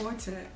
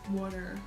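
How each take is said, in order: First: It is said in a South African accent. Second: It is said in an American accent. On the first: "we call it water" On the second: "they call it water"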